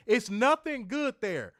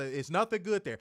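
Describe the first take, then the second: First: Loud, high, slow repeat; emphatic. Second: Said in the usual way. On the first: Shown as a demonstration. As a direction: hammer it home louder. Repeats line louder.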